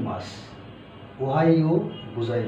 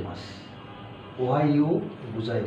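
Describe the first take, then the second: No difference in how they are said.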